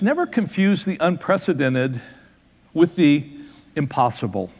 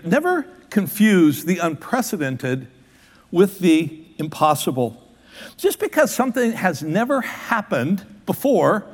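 First: Said in the usual way. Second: Slow, every word weighed; slow, deliberate repeat. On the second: Shown as a demonstration. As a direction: let it sink in, word by word. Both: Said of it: "let that soak in".

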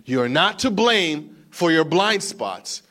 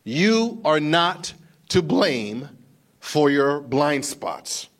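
First: Slow and louder, weight on to; emphatic again. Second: Very slow and louder, each word set apart; slow, emphatic. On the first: Preacher repeating the key line to the congregation, emphatic. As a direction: press the phrase home firmly. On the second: Preacher driving the point home to the congregation, slow and emphatic. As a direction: lean on every word, drawn out. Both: Shown as a demonstration. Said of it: "Take this in".

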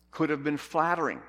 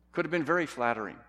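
First: Said in the usual way. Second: "very" leaned on, quick delivery; stress on very. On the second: Shown as a demonstration. Preacher upgrading his point, stress on "very". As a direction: punch the word "very".

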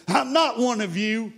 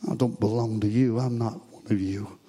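First: High, strained cry of denial, not full volume; acted-out screamed protest, pitched well above the telling; retold scream. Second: Low, soft repeat after the outburst; acted denial, sinking softer to the end; hushed retold denial. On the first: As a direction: throw it up high like a held-back scream. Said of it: "he must have screamed at them". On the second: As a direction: drop right down and say it quietly. Same denial repeated after scream.

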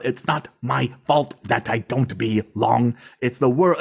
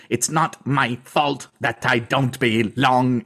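First: Slow, spelled-out delivery; over-enunciated. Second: Over-enunciated. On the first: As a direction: spell it out like to a child. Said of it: "speaking to them like they're a child". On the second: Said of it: "in a very over-enunciated way". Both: Retold or imitated.

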